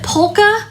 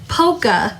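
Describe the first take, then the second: First: The L sound is clearly pronounced. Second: The L sound is left out. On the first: "like polka music" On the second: "like you don't pronounce the L"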